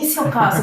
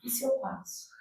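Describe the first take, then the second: First: It sounds hopeful and excited. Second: It sounds dreading and dejected.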